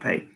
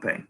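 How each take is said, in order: First: It uses the common, non-local pronunciation. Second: It uses the local people's pronunciation. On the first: This is how most outsiders say the name. "most people call it Pay" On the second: This is how people from the area say the name. "the locals call it Pay"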